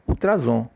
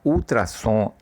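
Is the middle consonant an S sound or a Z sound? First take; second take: Z sound; S sound. First: The middle consonant is a buzzing Z sound. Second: The middle consonant is a hissing S sound.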